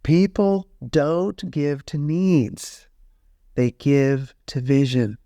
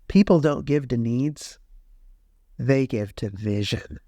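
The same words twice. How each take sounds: First: It is said slowly. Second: It is said at a normal pace.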